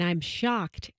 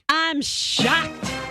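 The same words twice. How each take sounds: First: It is said in a flat, low-energy way. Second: It is said in a lively, high-energy way.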